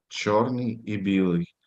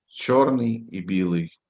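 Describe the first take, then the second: No difference in how they are said.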